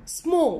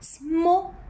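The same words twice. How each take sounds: First: The word is said as one unit. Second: The word is broken into separate parts. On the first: The speaker calls it right. "one time" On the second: The speaker calls it wrong. "can I say small? No"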